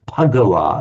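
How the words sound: It starts with a voiceless P sound. "it comes out as Pagawa, as if it's a P"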